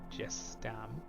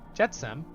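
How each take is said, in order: First: The s comes before the t: jes-tam. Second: The t comes before the s: jet-sam. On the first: The speaker calls it wrong. "It's not Jestam" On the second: The speaker calls it right. "making sure I'm saying that right"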